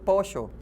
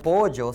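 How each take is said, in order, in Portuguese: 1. A consoante do meio é um som parecido com sh. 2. A consoante do meio é um som de y ou lh. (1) "se diz pocho" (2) "não se diz polho ou pollo"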